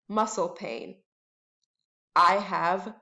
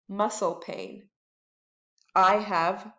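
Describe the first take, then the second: No difference in how they are said.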